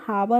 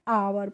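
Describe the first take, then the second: First: The word starts with an h sound. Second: The word starts with a vowel sound. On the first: The speaker calls it wrong. "इसलिए इसको हम हावर नहीं पढ़ते हैं" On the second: The speaker calls it right. "यहाँ पे जो एच होता है या वो क्या होता है? साइलेंट होता है"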